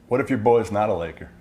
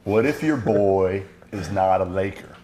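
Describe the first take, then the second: First: It is said at normal speed. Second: It is said slowly.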